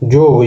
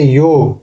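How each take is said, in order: First: The word begins with a j sound. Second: The word begins with a y sound. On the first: This is the Nagpuri form. "योग को जोग बोलेंगे" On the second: This is the standard Hindi form. "य कर उच्चारण ज हो जाएगा"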